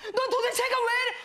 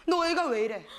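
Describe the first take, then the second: First: High mock outburst; imitated yelling boyfriend. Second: Restrained mock scolding; imitated scolding boyfriend. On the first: Retelling the boyfriend's yelling, high mock shout. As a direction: blow up like the exasperated boyfriend. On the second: Retelling the boyfriend's yelling, held-back scolding. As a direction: play the boyfriend starting to scold. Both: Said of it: "나한테 다짜고짜 막 소리를 지르는 거야".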